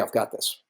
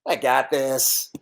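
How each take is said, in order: First: It sounds calm and thoughtfully confident. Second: It sounds cocky and overconfident.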